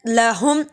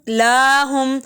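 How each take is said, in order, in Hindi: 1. पहला स्वर छोटा है। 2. पहला स्वर खींचकर लंबा पढ़ा जाता है।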